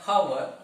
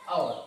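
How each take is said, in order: First: The word starts with an h sound. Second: The word starts with a vowel sound. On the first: The speaker calls it wrong. "It is not our" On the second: The speaker calls it right. "it is our. Our sound is pronounced there"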